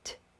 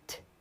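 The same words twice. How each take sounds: Both takes have the same delivery.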